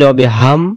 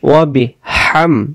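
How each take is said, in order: First: The h is a plain, light h sound. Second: The h is breathed deep from the throat. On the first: The speaker calls it wrong. "উচ্চারণ হবে না।" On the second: The speaker calls it right. "এখানে শস্য করে গলা থেকে হাম।"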